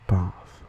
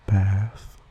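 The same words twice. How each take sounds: First: The vowel is a broad, open 'ah' sound. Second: The vowel is a flat 'a' as in trap. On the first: "with the trap-bath split" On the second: "without the trap-bath split"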